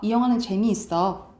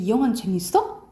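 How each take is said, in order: First: The pitch falls at the end of the sentence. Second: The pitch rises at the end of the sentence. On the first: It is a plain statement. "평소문이야" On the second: It is a question. "올리면 음문이 되고"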